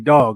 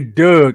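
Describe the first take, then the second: First: The vowel sounds like the one in 'log'. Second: The vowel sounds like the one in 'bug'. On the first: This is how the speaker says it himself. The speaker calls it right. "I say dog" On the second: This is how other local speakers say it. The speaker calls it wrong. "I don't say Doug. I hate that shit"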